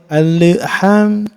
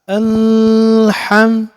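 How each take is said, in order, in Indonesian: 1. Bunyi L dipantulkan dengan lepasan kecil. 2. Bunyi L ditahan tetap dan jelas. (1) "nggak boleh dipantulkan" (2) "harus ditahan jelas"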